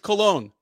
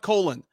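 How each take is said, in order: First: The name is said like the word cologne. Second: The name is said like the word colon. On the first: The speaker calls it right. "It's Cologne" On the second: The speaker calls it wrong. "It's not colon"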